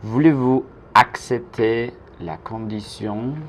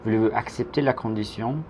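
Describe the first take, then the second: First: Slow French "Voulez-vous accepter la condition?", word group by word group; slow model. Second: Said in the usual way. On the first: Shown as a demonstration. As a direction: model it slowly for learners to repeat. Teacher's slow model sentence.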